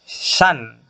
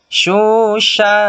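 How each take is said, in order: First: It ends with a clear n sound. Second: It ends with a blurred, unclear nasal sound. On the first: The speaker calls it wrong. "tidak boleh shan" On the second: The speaker calls it right. "tidak jelas eng atau en"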